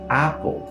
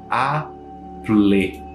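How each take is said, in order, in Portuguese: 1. A palavra termina no som de L. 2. Um som de vogal extra é pronunciado depois do L final. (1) "Na verdade, é Apple. Paul termina com esse som de U ou um L" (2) "a gente não fala Apple. Não fala assim"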